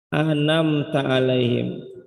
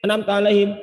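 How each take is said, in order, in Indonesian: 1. Frasa ini diucapkan dengan tempo pelan dan hati-hati. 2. Frasa ini diucapkan terburu-buru dan dengungannya terpotong. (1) "Jadi bacanya kayak gini ya" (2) "bacaannya dicepetin"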